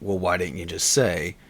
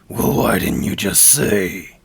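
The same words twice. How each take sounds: First: It is spoken in an ordinary natural voice. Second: It is spoken in a put-on character voice. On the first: "in a normal voice say" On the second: "give it another couple of takes and really try to enunciate"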